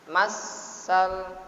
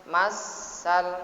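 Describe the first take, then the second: No difference in how they are said.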